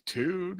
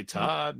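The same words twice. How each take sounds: First: Tood said with a long "oo" vowel, like "tude"; wrong Tood. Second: Todd said with a short open "ah", as in "tod"; correct Todd. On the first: Mimicking Carlin's mispronunciation of Todd, say Tood with an "oo". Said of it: "I wanted to say Todd". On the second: Explaining to a co-host how Carlin should have said Todd, say Todd clearly with an "ah". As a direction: say Todd properly, with an "ah" vowel. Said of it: "not, like, Tood". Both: Shown as a demonstration.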